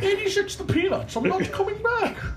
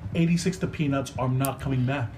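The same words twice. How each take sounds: First: It is said in a put-on villain voice. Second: It is said in a normal speaking voice.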